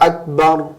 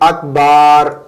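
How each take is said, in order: First: The vowel before 'r' is short. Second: The vowel before 'r' is drawn out long. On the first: The speaker calls it right. "याद रखिएगा सही क्या है" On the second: The speaker calls it wrong. "रा से पहले अलिफ पढ़ते हैं"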